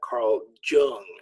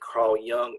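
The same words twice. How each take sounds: First: The name begins with a 'j' sound. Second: The name begins with a 'y' sound. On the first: The speaker calls it wrong. "Jung is an incorrect pronunciation" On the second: The speaker calls it right. "notice I said Carl Jung"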